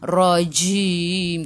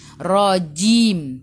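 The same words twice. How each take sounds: First: The j sound is released with a puff of air. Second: The j sound is held without a puff of air. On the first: The speaker calls it wrong. "Macam slang gitu, tak boleh" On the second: The speaker calls it right. "huruf jahar tak boleh keluar angin"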